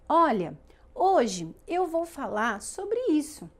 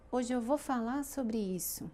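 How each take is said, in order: First: "Olha" punched, then "hoje eu vou falar sobre isso" slow and stressed; com ênfase. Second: "Hoje eu vou falar sobre isso" softer, flat, no word stressed; sem ênfase. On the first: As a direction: lean on "hoje", slowly. ("Olha" forte, "hoje eu vou falar sobre isso" devagar e enfatizado) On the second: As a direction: throw the line away, unstressed. ("Hoje eu vou falar sobre isso" baixinho, sem ênfase) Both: Shown as a demonstration. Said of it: "Isso é ênfase, é entonação".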